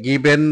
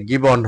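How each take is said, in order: First: "গিভেন" said with a clear e in the last syllable; given with an "en" ending. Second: "গিভন" said with an o sound in the last syllable; given with rounded ending. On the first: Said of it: "এটা গিভেন হবে না". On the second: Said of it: "এটা গিভন হবে উচ্চারণটা". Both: Shown as a demonstration.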